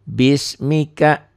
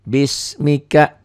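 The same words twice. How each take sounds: First: The first vowel is short. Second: The first vowel is short.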